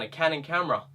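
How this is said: The voice is thin and held in the throat. The speaker calls it wrong. "in that voice that I sometimes use in my throat"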